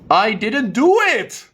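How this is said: The stress is on the word it. "I can also change it to it"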